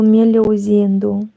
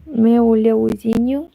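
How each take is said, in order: First: Meu leozinho with a falling Brazilian lilt; Brazilian Portuguese accent. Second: Meu leozinho asked with a rising Brazilian tune; Brazilian Portuguese accent. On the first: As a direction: imitate a Brazilian saying "meu leozinho" kindly. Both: Retold or imitated. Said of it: "you can see that I can imitate some accents".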